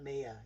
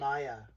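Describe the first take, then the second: First: The name starts with the vowel of 'me'. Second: The name starts with the vowel of 'my'. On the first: The speaker calls it wrong. "not Mia" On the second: The speaker calls it right. "Maya, not Mia"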